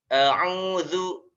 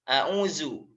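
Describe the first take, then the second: First: The middle consonant is a voiced th sound. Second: The middle consonant is a plain z sound. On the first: The speaker calls it right. "Yang betul gimana? Nanti makhrajnya ada di makhraj lisan" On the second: The speaker calls it wrong. "za ini diucapkan dengan huruf za"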